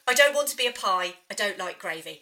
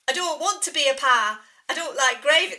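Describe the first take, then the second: First: It is said in his normal voice. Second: It is a put-on impression of Babs.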